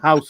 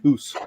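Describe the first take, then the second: First: The vowel is an 'ow' sound. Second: It has a Canadian-style 'oo' vowel.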